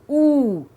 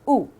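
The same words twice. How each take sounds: First: The vowel sound is long. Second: The vowel sound is short. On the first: "long vowel" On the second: "short sound"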